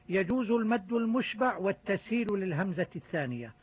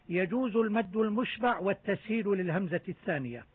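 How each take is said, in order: Both takes have the same delivery.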